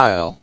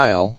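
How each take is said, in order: Both takes have the same delivery.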